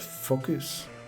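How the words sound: It is said with a French accent. "she always said focus"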